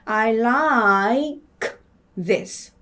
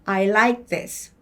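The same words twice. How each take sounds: First: The phrase is said slowly. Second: The phrase is said fast. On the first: "다시 천천히 읽으면" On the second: "더 빨리 읽으면"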